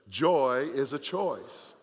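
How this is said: It is said with strong conviction and emphasis.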